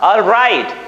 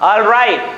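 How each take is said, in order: No difference in how they are said.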